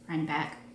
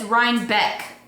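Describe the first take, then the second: First: The second syllable sounds like 'back'. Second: The second syllable sounds like 'beck'. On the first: The speaker calls it wrong. "I always want to say it like that" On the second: The speaker calls it right. "It's Rhinebeck with an E, not an A"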